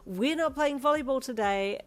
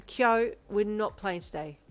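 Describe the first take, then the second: First: Put-on loud, firm call to the kids; firm teacher voice. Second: Slow, patient repeat; patient teacher. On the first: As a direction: stress on not. Teacher settling excited kids. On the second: Acted. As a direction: spell it out calmly for one child. Teacher repeating to one child.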